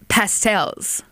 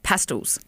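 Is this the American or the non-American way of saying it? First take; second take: American; non-American. First: It is said the American way. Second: It is said the non-American way.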